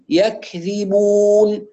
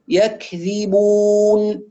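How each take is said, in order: First: The k stops then ends with breathy air. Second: The k stops then ends with breathy air.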